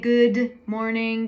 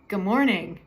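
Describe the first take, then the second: First: The D is released, adding an extra syllable. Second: The D is left out entirely. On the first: The speaker calls it wrong. "We don't say good morning because it adds an extra syllable" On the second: The speaker calls it right. "you can just skip the D"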